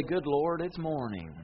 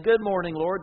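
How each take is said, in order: First: Mock-weary whine, sagging at the end; whiner's groan. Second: Bright and loud, glad to be awake; cheerful morning greeting. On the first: Whiner wakes and moans to the Lord, a mock-weary whine. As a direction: complain about waking up, dragging it down. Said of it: "they say". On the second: Acted. Grateful riser greets the Lord happily at dawn. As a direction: greet the day gladly and loud. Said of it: "and instead of saying".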